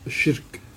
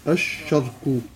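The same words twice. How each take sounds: First: The first vowel is an 'i' sound. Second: The first vowel is an 'a' sound. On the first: "واللغة الثالثة قد تحذف الهاء" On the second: "وقد يفتح أوله مع ذلك"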